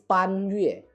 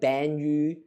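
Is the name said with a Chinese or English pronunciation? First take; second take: Chinese; English. First: The name is said with a Chinese-style pronunciation. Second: The name is said with an English-style pronunciation. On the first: The speaker calls it right. "But it's Pan Yue. It's not Ban Yu" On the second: The speaker calls it wrong. "in English dub they probably pronounce the word like Ban Yu"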